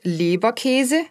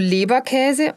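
First: The vowel after K is a closed e. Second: The vowel after K is an open ä. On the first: The speaker calls it wrong. "und nicht Leberkäse" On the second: The speaker calls it right. "wo der Buchstabe Ä steht, wird auch ein Ä gesprochen"

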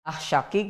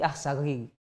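First: The final consonant is a q sound. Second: The final consonant is a hard g sound. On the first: This is the standard Arabic pronunciation. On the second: This is everyday Yemeni dialect speech.

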